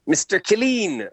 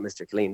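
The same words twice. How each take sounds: First: High, drawn-out mock teacher's call; annoyed teacher. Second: Said in the usual way. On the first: Retelling a teacher calling him out, high annoyed imitation. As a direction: imitate an annoyed schoolteacher calling a pupil, slowly. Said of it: "she'd get annoyed".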